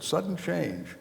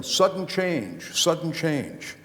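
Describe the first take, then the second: First: A smiling, quieter repeat pitched higher; said with a smile. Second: Slow drawn-out called chant, pitched higher; mock yelling. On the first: Retold or imitated. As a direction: say it through a smile, amused. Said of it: "with a smile on my face". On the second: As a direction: call it out like players on the field. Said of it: "everybody's yelling".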